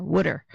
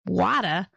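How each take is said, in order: First: "wooder" with a Philly vowel like wood; Philly-accented "wooder"; Philadelphia pronunciation. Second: Badly faked Boston "wada", dropping the R; mock Boston accent, open vowel, no R; terrible Boston accent. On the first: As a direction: say "wooder" the Philadelphia way, rhyming with "should-er". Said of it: "here in Philadelphia, we call it". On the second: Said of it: "that was my terrible Boston accent". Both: Shown as a demonstration.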